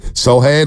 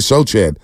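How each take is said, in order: First: The middle consonant is a soft 'h' sound. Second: The middle consonant is a 'ch' sound. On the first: The speaker calls it right. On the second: The speaker calls it wrong.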